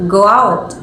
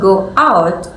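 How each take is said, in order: First: "go out" run together as one word; linked words. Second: "go out" as two separate words; clear break between words. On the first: Presenter showing linking, "go out" joined together. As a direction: glide from go straight into out, no gap. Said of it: "we link them together". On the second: Presenter showing unlinked speech, clear break in "go out". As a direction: leave a clean gap between go and out. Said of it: "when a clear break between the words". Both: Shown as a demonstration.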